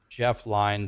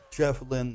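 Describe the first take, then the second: First: The surname rhymes with 'fine'. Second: The surname rhymes with 'win'. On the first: The speaker calls it wrong. "I was called him Jeff Line" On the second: The speaker calls it right. "It's pronounced Jeff Lynn"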